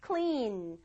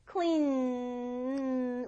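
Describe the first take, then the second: First: Said in the usual way. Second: Clean with a very long humming n; voiced ending. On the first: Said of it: "청소하다". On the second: Shown as a demonstration. Teacher proving the word ends voiced, clean held long on n. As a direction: stretch clean out on its ringing n. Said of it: "울리거든요".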